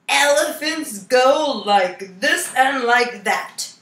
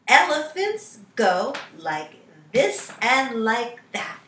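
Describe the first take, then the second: First: It is said fast. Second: It is said slowly.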